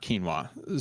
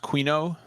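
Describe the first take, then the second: First: The word ends in an 'ah' sound. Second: The word ends in an 'oh' sound. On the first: The speaker calls it wrong. "not quinoa" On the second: The speaker calls it right. "It's pronounced quino"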